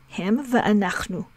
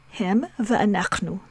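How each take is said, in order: No difference in how they are said.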